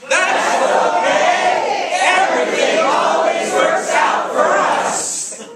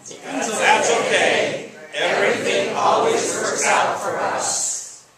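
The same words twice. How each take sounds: First: It is said very loudly, almost shouted. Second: It is said at a normal volume.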